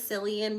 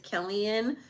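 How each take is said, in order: First: The name begins with an S sound. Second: The name begins with a K sound. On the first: The speaker calls it wrong. "I thought it was Cillian because it was a C" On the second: The speaker calls it right. "but I guess it's Cillian"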